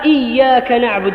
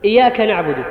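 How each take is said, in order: First: The y sound in the first word is doubled. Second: The y sound in the first word is single. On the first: It means you alone we worship. The speaker calls it right. "بالشد على الياء" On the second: It means we worship the sun disk. The speaker calls it wrong. "الإياك أيها الإخوة هو قرص الشمس"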